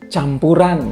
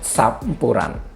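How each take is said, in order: First: The word begins with a ch sound. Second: The word begins with an s-like sound.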